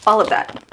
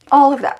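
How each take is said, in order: First: Said in the usual way. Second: A startled, louder second look; louder emphatic repeat. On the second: Real, not acted. Staring at her cut hair, exclaiming louder. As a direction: say it again, louder and higher.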